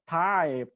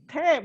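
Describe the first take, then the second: First: Said in a heavy Australian accent, sounding like 'type'. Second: Said in the speaker's own accent, sounding like 'tape'. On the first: "he's like with the heavy Australian accent" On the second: "We call it tape, not type"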